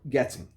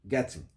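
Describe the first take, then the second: First: It is said with a British accent. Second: It is said with a British accent.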